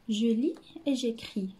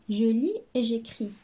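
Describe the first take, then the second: First: Je lis et j'écris read slowly; slow title reading. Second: Je lis et j'écris repeated even slower; slow model reading. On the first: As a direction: drag out je lis et j'écris for children. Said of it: "reading title slowly". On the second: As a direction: say je lis et j'écris slowly, word by word. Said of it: "repeat title slowly". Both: Shown as a demonstration.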